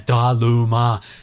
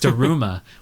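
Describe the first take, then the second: First: The middle consonant is an L sound. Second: The middle consonant is an R sound. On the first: The speaker calls it wrong. "anglicized into Daluma, which doesn't sound right" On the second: The speaker calls it right. "That's what it is"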